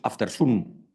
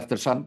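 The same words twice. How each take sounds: First: It is said with a Spanish accent. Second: It is said with an English accent. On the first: "en español decimos after sun" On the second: "en vez de after sun"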